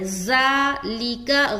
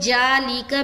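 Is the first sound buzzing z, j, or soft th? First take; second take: buzzing z; j. First: The first sound is a buzzing, hissing z. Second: The first sound is a j. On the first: "ज़ालिका गलत है। ज़ा ज़ा" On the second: "ज़ाल हर्फ जीम से चेंज हो जा रहा है"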